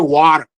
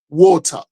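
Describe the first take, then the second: First: It is said with an American accent. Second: It is said with a British accent. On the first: "Here we say water" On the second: "in England we say water"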